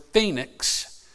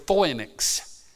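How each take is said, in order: First: Said in the usual way. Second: Phoenix said the Greek way, with an OY vowel; Greek pronunciation. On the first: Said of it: "it was confused with the word phoenix". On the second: Shown as a demonstration. Preacher giving the Greek word for palm branch, Greek pronunciation. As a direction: say phoenix as FOY-niks. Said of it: "The Greek word for palm branch".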